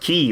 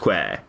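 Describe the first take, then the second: First: The word sounds like 'key', with no w. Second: The word sounds like 'kway', with a w. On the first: "I suppose it's pronounced key" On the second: "I prefer pronouncing it as queer"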